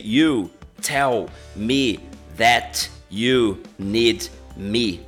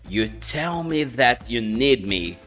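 First: Each word is said separately and fully. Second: The words run together, with sounds dropped. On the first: "se você ler, parecia" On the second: "quando junta tudo e você fala"

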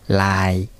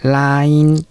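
First: The word ends without a final n sound. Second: The word ends with a clear final n sound. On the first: "こういう風になります" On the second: "ちゃんと最後のんまで言う人もいます"

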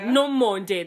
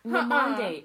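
First: The name is said carefully and fully. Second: The name is said in a distorted way. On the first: The speaker calls it right. "That's how you say it" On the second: The speaker calls it wrong. "I butcher her name when I don't agree with her"

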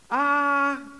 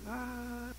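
First: It is said somewhat louder. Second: It is said very quietly.

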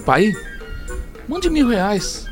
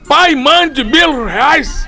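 First: It is said as a gentle, pleading request. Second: It is said as a rude, demanding order.

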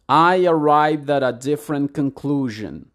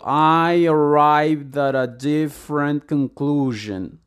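First: The sentence is spoken at a fast pace. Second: The sentence is spoken at a slow pace. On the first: "creo que lo dije todavía un poquito quizá muy rápido para ti" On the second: "aplicando un poco esto del principio de decirlo lento, deberías decirlo"

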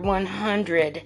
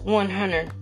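First: The D in hundred is clearly pronounced. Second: The D in hundred is dropped. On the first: The speaker is calm. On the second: The speaker is thrilled.

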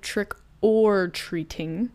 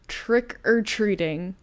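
First: Each word is said clearly and separately. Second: The words run together as one word. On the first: "instead of trick or treating" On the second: "I say trick or treating"

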